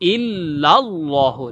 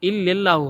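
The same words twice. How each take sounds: First: The middle syllable sounds like 'lal'. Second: The middle syllable sounds like 'lel'. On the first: The speaker calls it right. "লাল হবে" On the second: The speaker calls it wrong. "লেল না"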